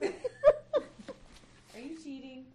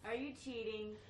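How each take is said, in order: First: It is said in a put-on mom voice. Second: It is said in her normal voice.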